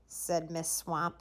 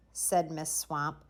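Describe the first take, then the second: No difference in how they are said.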